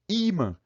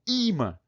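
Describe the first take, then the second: First: The stress is on the first syllable. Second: The stress is on the first syllable.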